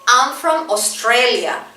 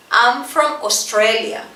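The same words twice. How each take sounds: The two takes are said the same way.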